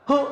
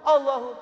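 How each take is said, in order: First: It is said very fast, reduced to hu. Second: It is said fully at a normal pace.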